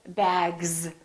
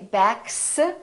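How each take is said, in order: First: The final sound is a voiced z. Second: The final sound is a voiceless s. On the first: The speaker calls it right. "we say bags. So the S is pronounced like a Z" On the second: The speaker calls it wrong. "we don't say backs"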